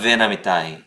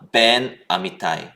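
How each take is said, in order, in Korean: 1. 마찰음 v로 시작하고, 뒤 소리와 부드럽게 이어져요. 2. 입술을 붙였다가 떼는 막힌 b 소리로 시작해요. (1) "점을 완전히 이제 자 제거를 하고 ... 마찰음으로" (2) "점을 붙여서 ... 입술을 이제 붙여서 딱 읽어야"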